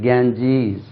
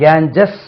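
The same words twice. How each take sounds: First: கேஞ்சீஸ் with a long "-jeez"; correct Ganges. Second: கேஞ்சஸ் ending in a short "-jus"; wrong Ganges. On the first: Teacher answers the common mistake, long-vowel model pronunciation. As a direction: stretch the second vowel of கேஞ்சீஸ். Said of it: "கேஞ்சஸ் அப்படின்னு சொல்றாங்க". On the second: Teacher repeats what others say, short-vowel mispronunciation. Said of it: "அப்படின்னு சொல்றாங்க". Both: Shown as a demonstration.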